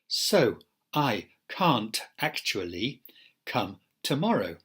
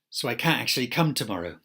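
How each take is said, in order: First: Every sound is said fully and separately. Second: Sounds are heavily squashed and reduced together. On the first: "isolated forms where we protect every segment" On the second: "jungle forms"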